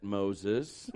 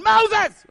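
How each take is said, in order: First: Low, soft divine voice; deep, hushed voice of God; the Lord. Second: High, very loud cry of a crowd member; piercing full-force yell; screaming. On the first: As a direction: intone the name deep and gently. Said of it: "let's go back to that". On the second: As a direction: scream the name for help. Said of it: "And the people are going". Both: Acted.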